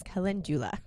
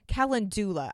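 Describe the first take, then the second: First: Calendula said cuh-LEN-juh-la; correct pronunciation of calendula. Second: Calendula with a plain "doo" in it, cal-en-DOO-la; mispronounced calendula. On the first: Podcaster giving listeners the correct pronunciation, calendula as "ca-LEN-jula". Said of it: "the correct pronunciation". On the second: Podcaster confessing her old mistake, calendula mispronounced as "calen-doo-la". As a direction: say calendula wrongly, with "dula" as "doo-la", no j sound. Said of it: "I mispronounced it". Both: Shown as a demonstration.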